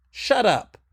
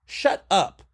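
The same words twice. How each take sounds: The two takes are said the same way.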